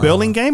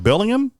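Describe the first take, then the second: First: The name ends with a hard 'game' sound. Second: The name ends with a soft 'ham' sound. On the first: The speaker calls it right. "It's pronounced Burlingame" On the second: The speaker calls it wrong. "No, game"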